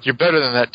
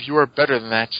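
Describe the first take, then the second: First: Said in the usual way. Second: "are" stressed firmly. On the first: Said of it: "hero quote, first take". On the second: Retold or imitated. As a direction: lean on the word "are". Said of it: "repeated with emphasis".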